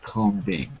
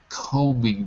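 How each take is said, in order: First: The b sound is pronounced. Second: The b sound is silent. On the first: The speaker calls it wrong. "not combing" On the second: The speaker calls it right. "I'm combing my hair"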